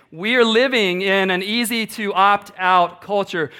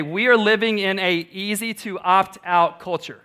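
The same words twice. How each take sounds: First: Slower, weighty repeat of "We are living in an easy to opt out culture"; repeated with emphasis. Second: Said in the usual way. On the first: Shown as a demonstration. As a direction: lean into "are" and slow it down. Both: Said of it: "I'll say that again".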